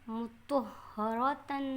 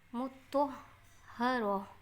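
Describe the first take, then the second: First: The word ends with a t sound and nunation. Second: The word ends with a soft h sound. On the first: The reading continues without stopping. "बिगर आयत के पढ़ा तो ता पढ़ा है" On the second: The reading stops at the end of the verse. "आयत करके पढ़ा है तो हमने हा पढ़ा है"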